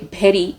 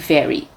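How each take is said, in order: First: It is said with a Bengali accent. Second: It is said with a neutral accent. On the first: "if you're from India and you're from Bengal, you probably say" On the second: "instead of saying"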